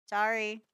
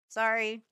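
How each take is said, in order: Both takes have the same delivery.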